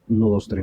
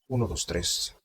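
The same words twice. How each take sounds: First: The voice goes through a soft, smooth filter. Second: The voice goes through an old-style vintage filter. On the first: "Luego está este otro que se llama Suave" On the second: "Este filtro se llama Vintage"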